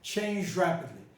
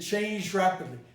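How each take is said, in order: First: The two words are joined with a palatalized sound. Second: The same.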